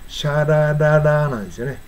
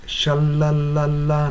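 First: "シャラララ" with flapped Japanese r; Japanese-style r. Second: "シャラララ" with a clear English l. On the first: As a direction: say "シャラララ" with flat Japanese ra sounds. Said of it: "日本語ネイティブだったら". (日本語式の「シャラララ」) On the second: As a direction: say "シャラララ" tongue up, la la la. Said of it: "英語では". (英語の L で「シャラララ」) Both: Shown as a demonstration.

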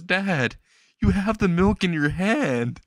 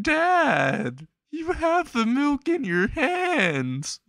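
First: High-pitched protest to Dad; mildly pleading boy, voice lifted; protesting son. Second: Hammed-up wail, very high and drawn out; mock-sobbing child wailing after Dad; crying. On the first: Acted. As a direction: object in a higher voice, not yet crying. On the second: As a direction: cry it out slowly in a squeaky high voice. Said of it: "Izuku starts crying".

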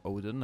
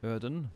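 First: "Odin" said as OH-din, English long O; anglicized Odin. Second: "Odin" said as ÖD-in, rounded front vowel; Odin with umlaut. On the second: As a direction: say "Odin" like ÖDen, Nordic vowel. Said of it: "Or Odin, I suppose". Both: Shown as a demonstration.

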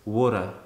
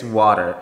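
First: Australian "water", final r dropped; Australian accent. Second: American "water" with a clear r; American accent. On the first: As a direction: say "water" Aussie-style, ending in an open "ah". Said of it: "and Australian is water". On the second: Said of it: "American is water". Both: Shown as a demonstration.

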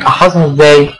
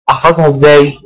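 Both takes have the same delivery.

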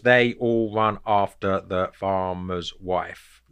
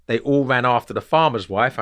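First: Slow, lower, syllable-by-syllable; measured, evenly spaced syllables in "They all run after the farmer's wife"; counting syllables. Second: Said in the usual way. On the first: Shown as a demonstration. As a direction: separate every syllable as if counting them out. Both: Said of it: "I count those".

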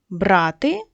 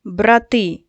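First: Брати with the stress on БРА-; stress on first syllable. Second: Брати with the stress on the final -ТИ; stress on second syllable. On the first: Teacher reading out a stress pair, брати stressed on бра-. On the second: Teacher reading out a stress pair, брати stressed on -ти. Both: Shown as a demonstration. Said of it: "відрізняються тільки наголосом".

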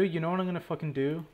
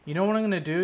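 First: Fast, rushed, stress on you; fed-up rant. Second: Louder, higher, stress on what; fed-up challenge. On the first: Fed-up gamer repeats his plan in a fast irritated rush. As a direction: spit it out quickly in frustration. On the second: Fed-up gamer announces a new plan, louder fed-up challenge. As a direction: throw down the threat. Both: Real, not acted. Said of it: "I've had enough of this shit".

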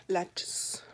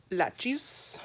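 First: Breathy aside echo; whispered. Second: Said in the usual way. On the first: Real, not acted. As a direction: whisper the word to yourself.

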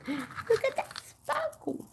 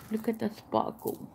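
First: Gasp, then high, drawn-out wonder; hammed-up high-pitched marvelling; exaggerated awe. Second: Said in the usual way. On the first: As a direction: play up the amazement in a slow high squeal. Gasps, repeats it exaggeratedly.

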